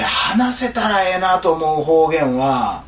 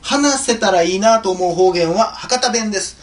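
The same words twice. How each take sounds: First: Slow Kansai re-reading with "ええな"; Kansai dialect. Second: Said in the usual way. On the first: Shown as a demonstration. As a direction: draw the line out in Kansai dialect. 関西弁に言い換えて読み直す. (関西弁でゆっくり読み直す)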